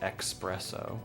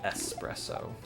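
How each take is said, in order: First: The word begins with an 'ex' sound. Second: The word begins with an 'ess' sound. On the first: The speaker calls it wrong. "when people say espresso" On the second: The speaker calls it right. "Instead of espresso"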